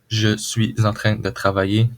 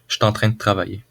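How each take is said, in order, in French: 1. Chaque mot est prononcé en entier et avec soin. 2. Beaucoup de mots sont fortement raccourcis et liés entre eux.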